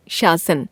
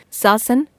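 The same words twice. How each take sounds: First: शासन said with sh as "shasan", falling; the corrected शासन, clearly "shasan"; correct form. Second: शासन said with a plain s as "sasan"; the wrong form of शासन, sounded "sasan"; wrong spelling said aloud. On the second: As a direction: read out the misspelt शासन with s, not sh. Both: Shown as a demonstration. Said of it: "श, श, स की अशुद्धियां".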